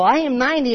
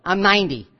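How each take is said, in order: First: High-pitched happy marvelling; acted delight at the impossible; joyful amazement. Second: Understated, doubting statement of fact; mildly dismissive, acting out disbelief; skeptical disbelief. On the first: Sarah laughing with God about her age, joyfully amazed. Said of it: "Now she's laughing with God". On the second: Sarah objecting to God about her age, disbelieving. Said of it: "a disbelief, like".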